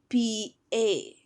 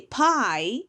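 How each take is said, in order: First: The vowel sounds like the English word pay. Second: The vowel sounds like the English word pie. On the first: The speaker calls it right. "we say P A" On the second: The speaker calls it wrong. "we don't say pie"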